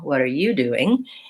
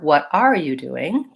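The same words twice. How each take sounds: First: The stress falls on the word you. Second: The stress falls on the word are. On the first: "I'm changing the stress to be on you" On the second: "if I were to stress R"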